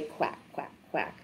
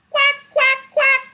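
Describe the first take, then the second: First: Whispered quack, quack, quack; very soft, toneless duck sounds; hushed quacks. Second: High, sharp quacks; squawked-up duck impression; duck quacking. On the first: Acted. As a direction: drop to a low, voiceless murmur. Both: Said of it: "Ducks say".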